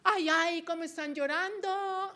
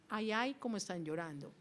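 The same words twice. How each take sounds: First: The voice is raised on the exclamation. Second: The voice stays level, not raised. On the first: The speaker calls it wrong. "Yo no diría" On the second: The speaker calls it right. "yo ahí no subiría la voz"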